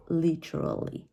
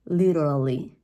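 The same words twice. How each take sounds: First: Literally with a crisp true T; British pronunciation. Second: Literally with a tongue-tap D for T, louder; American pronunciation. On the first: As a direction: say "literally" as LIT-er-uh-lee. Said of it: "in British English". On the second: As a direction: say "Literally" firmly as LID-er-uh-lee. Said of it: "playing with your tongue". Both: Shown as a demonstration.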